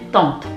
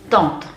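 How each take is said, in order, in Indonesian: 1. Kata tante diucapkan dengan bunyi bahasa Prancis. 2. Kata tante diucapkan dengan bunyi bahasa Prancis.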